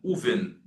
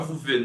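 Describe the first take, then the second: First: The word starts with an oo vowel. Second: The word starts with a v sound. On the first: The speaker calls it right. "vous le prononcez pas, vous faites ouven" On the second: The speaker calls it wrong. "non pas Vouven"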